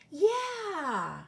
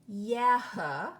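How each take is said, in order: First: The word ends on the vowel, without h. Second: The word ends with an audible breathy h. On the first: The speaker calls it right. "Listen to how we would read these words" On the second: The speaker calls it wrong. "It isn't aha or yeah"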